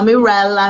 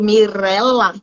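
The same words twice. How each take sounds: First: The r is made without the Portuguese trill. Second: The r is made with a Portuguese trill. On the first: This is how people who do not speak the language say it. The speaker calls it wrong. "não consegue fazer o R tremido" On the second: This is the native way to say the name. The speaker calls it right. "O fonema do ré é próprio da língua portuguesa"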